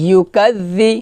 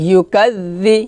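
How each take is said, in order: The two takes are said the same way.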